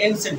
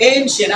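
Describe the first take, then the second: First: Said in the usual way. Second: এনশিয়েন্ট said as EIN-shen; correct pronunciation demo. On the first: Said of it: "আমরা অনেকে এনশিয়েন্ট বলি". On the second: Shown as a demonstration. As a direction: open এনশিয়েন্ট on a long "ei". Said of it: "কি হবে?".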